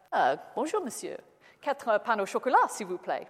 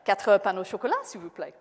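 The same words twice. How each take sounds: First: Put-on French with a plain English accent. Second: Put-on a louder retry of the order, same English accent; repeated English-accented French. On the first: Englishman ordering from the baker in clumsy French. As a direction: order pastries in schoolboy French. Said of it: "I know my accent's not particularly good". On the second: Englishman repeating his order to a blank baker. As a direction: say it again a little louder for the baker. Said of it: "I repeated my order".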